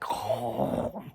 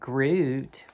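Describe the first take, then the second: First: It is said the Dutch or German way. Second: It is said the English way.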